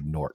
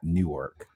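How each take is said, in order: First: It is said like 'Nork', one syllable. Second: It is said like 'New-ark', two syllables. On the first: This is how locals say the New Jersey city. The speaker calls it right. "You hear I say Newark" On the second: This is not how locals say the New Jersey city. The speaker calls it wrong. "not Newark"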